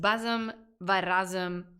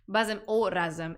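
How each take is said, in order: First: The joining word is pronounced va. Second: The joining word is pronounced o.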